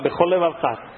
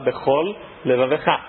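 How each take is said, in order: First: The words merge, sharing one L sound quickly. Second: The words are separated, each L sound pronounced. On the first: The speaker calls it wrong. "Se você fala rápido, você fala bechol levavecha, você fala um L só" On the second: The speaker calls it right. "tem que falar bechol levavecha"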